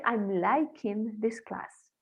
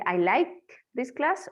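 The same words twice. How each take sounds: First: Wrong example. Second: Correct example. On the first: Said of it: "yo no puedo decir". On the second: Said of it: "Puedo decir". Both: Shown as a demonstration.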